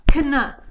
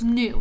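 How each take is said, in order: First: The word begins with a sounded K. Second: The word begins with an N sound. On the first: The speaker calls it wrong. "we don't say k, kna. We do not say kna" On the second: The speaker calls it right. "The K is silent. The E W says oo, so it's new"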